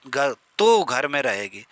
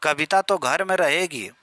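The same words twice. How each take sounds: First: Slow, तो drawn out and pressed; slow down and dwell on तो; slow stress on तो. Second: तो slightly marked, normal pace; a first quick take leaning on तो; light stress on तो. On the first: Teacher repeating example slowly, तो heavily stressed. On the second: Teacher's first example for students, तो lightly stressed. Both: Shown as a demonstration. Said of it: "इसमें आप बल देंगे".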